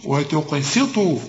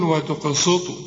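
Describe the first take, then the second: First: "وتقسطوا" slowly, thin s with "ee" vowel; correct light seen. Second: "وتقسطوا" with a heavy dark s, rounded vowel; wrong saad. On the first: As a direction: keep "si" clear in "وتقسطوا". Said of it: "دي سين ومكسورة". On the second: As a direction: darken the s in "وتقسطوا" as a mistake. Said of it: "وتطلعها صاد". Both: Shown as a demonstration.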